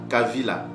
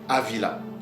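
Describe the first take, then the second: First: The word begins with a strong K sound. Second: The word begins with a vowel sound. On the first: The speaker calls it right. "il a le son d'un K fort" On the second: The speaker calls it wrong. "nos pères ne le prononçaient jamais Avila"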